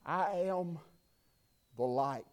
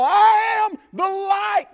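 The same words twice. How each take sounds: First: Much softer, low and hushed; Jesus. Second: Slow, loud, high proclaiming shout; shouted proclamation. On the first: Jesus speaking softly to the children in the temple, hushed and low. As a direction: let it fall quiet and deep, like a gentle teacher. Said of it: "can you hear him as he sits in that temple and he says". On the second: Preacher declaring Jesus' words to the church, slow loud shout. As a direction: thunder it out, slowly. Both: Acted.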